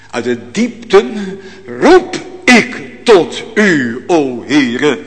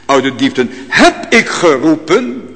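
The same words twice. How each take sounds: First: "roep" drawn out slowly and leaned on, present tense; slow down and press "roep ik tot u"; stress on roep. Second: Said in the usual way. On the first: Shown as a demonstration. Preacher correcting the text's tense, slow stress on "roep". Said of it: "Niet meer riep, maar roep vandaag". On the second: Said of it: "Nee, staat er niet".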